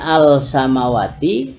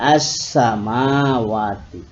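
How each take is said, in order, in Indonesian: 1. Bunyi L diucapkan dengan jelas sebelum S. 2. Bunyi L melebur menjadi bunyi S yang dobel. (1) "Yang tadinya al samawati" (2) "diganti atau menjadi as samawati"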